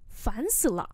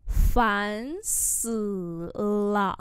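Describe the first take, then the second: First: Said in the usual way. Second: Drawn-out syllables; syllable-by-syllable repeat; slow model pronunciation. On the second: Shown as a demonstration. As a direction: say it slowly for learners. Teacher repeats phrase slowly.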